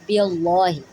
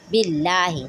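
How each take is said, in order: First: The L sound is thick and heavy. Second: The L sound is thin and light. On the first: The speaker calls it wrong. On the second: The speaker calls it right. "Then we can say lightly"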